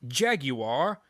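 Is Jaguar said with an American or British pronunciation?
British. The word has a British pronunciation. The speaker calls it right. "It's Jaguar. If you're gonna pronounce it right"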